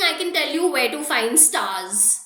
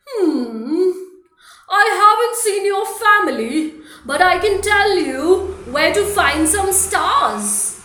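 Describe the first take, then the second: First: Said in the usual way. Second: Loud, bouncy otter voice, slowing at the end; cheerful Mister Otter. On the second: Acted. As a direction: play the otter big and jolly. Mister Otter answers Gum Gum.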